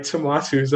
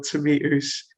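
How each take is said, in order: First: "tomatoes" said the speaker's own Caribbean way; own pronunciation of tomatoes. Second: Put-on "tomatoes" drawn out slowly in the other accent; contrasted pronunciation of tomatoes. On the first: Retold or imitated. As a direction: say "tomatoes" in your home accent. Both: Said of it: "please, not tomatoes".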